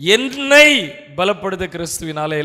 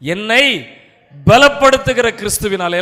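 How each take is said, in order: First: The stress is on the first word. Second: The stress is on the second word. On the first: "முதல் முறை முதல் வார்த்தையை stress பண்ணுவேன்" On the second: "ரெண்டாவது முறை ரெண்டாவது வார்த்தைக்கு ஸ்ட்ரெஸ் கொடுப்பேன்"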